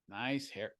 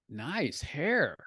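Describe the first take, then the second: First: It is said in a sarcastic, unfriendly tone. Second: It is said in a warm, sincere tone. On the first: The compliment is mocking, not meant. "kind of sarcastic, you know, not not very friendly" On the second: The compliment is genuine. "I was sincere with my tone"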